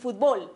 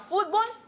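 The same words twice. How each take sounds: First: The stress is on the last syllable. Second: The stress is on the first syllable. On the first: It is the form without the written accent mark. "en la otra es aguda" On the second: It is the form with the written accent mark. "con y sin tilde"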